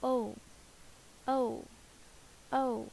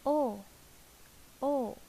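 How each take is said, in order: First: "Oh" as a full rounded Western vowel. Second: "Oh" softened and a little higher; Vietnamese oh. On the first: Teacher shows the Western oh. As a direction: say "oh, oh, oh" round and open. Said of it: "And, um". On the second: Teacher demonstrates the Vietnamese oh. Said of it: "The Vietnamese say this". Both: Shown as a demonstration.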